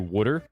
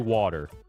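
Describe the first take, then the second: First: It is said in a New Jersey accent. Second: It is said in a general accent. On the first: This is the stereotyped local way. "that's the New Jersey stereotype, that we say water" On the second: This is how most people say it. "Which is the way the rest of the world says it"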